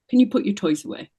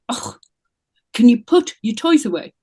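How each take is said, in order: First: It is asked in a calm, neutral tone. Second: It is asked in an urgent, pressing tone.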